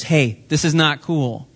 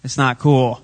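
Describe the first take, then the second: First: Slow, deliberate lightly voiced Jesus; slow gentle rebuke. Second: Said in the usual way. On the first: Jesus telling the crowd, slow mild rebuke. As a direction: spell it out slowly to the crowd. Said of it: "he was saying to the others". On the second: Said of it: "That's right".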